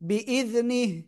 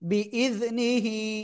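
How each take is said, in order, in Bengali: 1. শেষের হ স্বরহীন, একদম খালি উচ্চারিত হয়। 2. শেষের হ-এর পরে একটি ছোট ই স্বর আছে।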